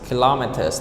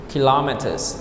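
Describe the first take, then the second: First: The stress is on the second syllable. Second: The stress is on the second syllable.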